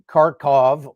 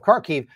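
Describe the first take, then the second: First: The name is given its Russian pronunciation. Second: The name is given its Ukrainian pronunciation. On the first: The speaker sides with Russia. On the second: The speaker sides with Ukraine.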